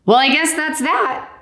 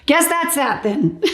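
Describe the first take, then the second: First: Higher, dry shrug; deadpan doctor. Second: High, giggly repeat; laughing echo. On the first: Doctor closing the case, dry and amused. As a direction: say it with a comic shrug. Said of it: "he was really funny". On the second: Patient echoing the doctor, giggling. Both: Retold or imitated.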